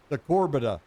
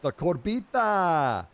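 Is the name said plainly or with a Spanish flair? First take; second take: plainly; Spanish flair. First: The name is said in a plain English way. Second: The name is said with a Spanish-style flair. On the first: "I think is how you say it" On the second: "I like to put a little more Espanola on mine"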